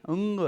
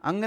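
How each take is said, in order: First: अंग, ग को धीरे से छोड़ते हुए; correct ang. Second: अंग with a hard, stressed ग; अंग, ग पर ज़ोर देकर; wrong ang. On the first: (कंठ से नरम अंग) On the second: (अंग का ग ज़ोर से) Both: Shown as a demonstration. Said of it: "अंग नहीं".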